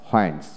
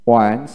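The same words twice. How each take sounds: First: হোয়েন্স with an audible h first; হোয়েন্স starting on breathed hw; American h pronunciation. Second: ওয়েন্স starting on w, no h; ওয়েন্স with a plain w onset; British w pronunciation. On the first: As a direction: sound the h in হোয়েন্স. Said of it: "আমেরিকানে হ". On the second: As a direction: drop the h in ওয়েন্স. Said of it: "British উচ্চারণে". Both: Shown as a demonstration.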